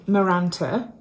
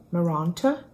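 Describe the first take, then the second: First: Said in the usual way. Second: Posh "Maranta" with a long, open "ah" in the middle; posh-accented "Maranta?" with a questioning lift; posh pronunciation. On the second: Shown as a demonstration. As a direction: say "Maranta" the posh way, as mar-AHN-ta, as if asking. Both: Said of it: "That sounded very posh".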